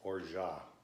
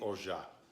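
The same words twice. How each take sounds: Both takes have the same delivery.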